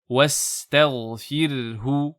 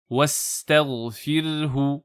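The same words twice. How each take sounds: First: The r sound is light and thin. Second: The r sound is light and thin.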